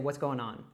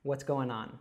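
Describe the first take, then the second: The two takes are said the same way.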